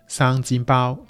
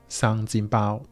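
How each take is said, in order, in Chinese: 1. 这是用粤语说的。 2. 这是用粤语说的。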